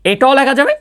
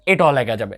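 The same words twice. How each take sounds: First: এটাও লেখা যাবে said higher with the pitch rising on যাবে; rising tune. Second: এটাও লেখা যাবে said lower and softer, falling on যাবে; falling tune. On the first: Teacher telling students this form is also allowed, rising. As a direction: lift যাবে up like an open offer. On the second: Teacher confirming to students the form is allowed, falling. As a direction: settle it down as a firm confirmation. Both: Shown as a demonstration.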